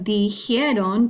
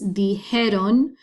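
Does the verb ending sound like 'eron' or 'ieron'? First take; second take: ieron; eron. First: The ending is said with an extra i: ieron. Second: The ending is said without the i: eron. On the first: The speaker calls it wrong. "instead of dijeron, don't say that" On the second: The speaker calls it right. "it's dijeron"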